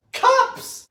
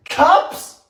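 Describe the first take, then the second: First: Very high squeaked outcry; appalled falsetto exclamation; incredulous squeal. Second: High rising disbelief; stunned, high-pitched query; incredulous question. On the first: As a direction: squeak it out in disbelief. Repeats it, more appalled. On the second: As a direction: ask it high, voice shooting upward. Disbelief at amount of sugar. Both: Real, not acted.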